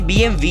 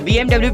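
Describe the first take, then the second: First: The last letter is said as 'vee'. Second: The last letter is said as 'double-u'. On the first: This is how it is said in its home country. The speaker calls it right. "इसकी जो real pronunciation है" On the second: This is the common international way of saying it. The speaker calls it wrong. "आप में से ज्यादातर लोग इस company को बी एम डब्ल्यू प्रोनाउंस करते होंगे"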